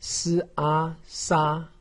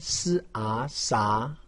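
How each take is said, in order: First: The pitch stays high and level. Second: The pitch rises from middle to high. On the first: "一声" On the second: "二声"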